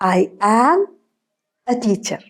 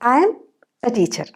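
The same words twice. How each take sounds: First: "I am" is said as two full words. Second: "I am" is shortened into one syllable.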